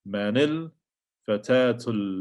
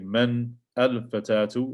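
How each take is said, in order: First: Man runs into the next word as manil. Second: Man and al are said as separate syllables. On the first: The speaker calls it right. "it becomes manil" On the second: The speaker calls it wrong. "You don't say man al fatatu"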